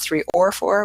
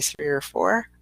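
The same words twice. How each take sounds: First: The word 'or' is said with its full vowel. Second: The word 'or' is reduced to a weak 'er'. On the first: The speaker calls it wrong. "Not three or four" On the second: The speaker calls it right. "we say three or four. We just put that little er in there"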